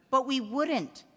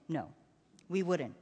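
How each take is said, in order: First: Lightly voiced child pressing for reassurance; a boy's worried insistence; insistent boy. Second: Low, quiet father's promise; reassuring father. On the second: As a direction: reassure a child softly. Father reassures his son. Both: A narrator's reading.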